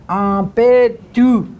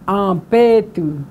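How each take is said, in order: First: "Ampetu" slow, with a hard P and a hard T. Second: "Ampetu" with an aspirated hard P. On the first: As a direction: stress the hard consonants, slowly. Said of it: "It's also a hard T". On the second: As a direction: hit the P hard for the class. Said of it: "it's a, a hard P". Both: Shown as a demonstration.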